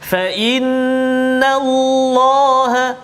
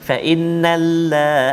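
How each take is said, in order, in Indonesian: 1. Bunyi L pada Allah itu tebal. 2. Bunyi L pada Allah itu tipis. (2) "jangan baca nipis"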